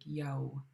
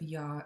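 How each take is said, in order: First: The vowel is said with rounded lips. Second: The vowel is said with unrounded lips. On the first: The speaker calls it right. "you actually round your lips for every single W" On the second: The speaker calls it wrong. "instead of ya"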